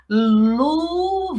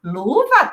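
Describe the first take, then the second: First: "Luva" stretched out, sliding slowly from sound to sound; blended sounds. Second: Said in the usual way. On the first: Shown as a demonstration. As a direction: blend "Luva" in long joined-up syllables. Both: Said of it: "falar tudo junto".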